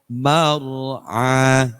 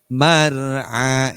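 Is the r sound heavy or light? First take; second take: heavy; light. First: The r sound is heavy and thick. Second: The r sound is light and thin. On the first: The speaker calls it right. "kalau ditafkhimkan" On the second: The speaker calls it wrong. "masih polos"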